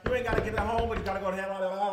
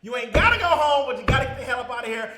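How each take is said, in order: First: Tongue-tied, words tripping over each other; stumbling through the catchphrase with mouth full; fumbled catchphrase. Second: Loud, high and fast shout; shouted catchphrase. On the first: Real, not acted. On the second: Acted. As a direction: yell the send-off with full force. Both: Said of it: "I can't even speak right now".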